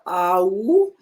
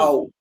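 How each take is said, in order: First: The two vowels are pulled apart into two parts. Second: The two vowels glide together as one sound. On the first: The speaker calls it wrong. "it's not that much separate. It's not au" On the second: The speaker calls it right. "It's one sound, au"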